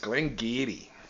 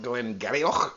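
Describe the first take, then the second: First: The name is said in a shortened, contracted form. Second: The name is said letter by letter as spelled. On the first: The speaker calls it right. "It's Glengarry" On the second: The speaker calls it wrong. "It looks like Glengarioch, but it's not"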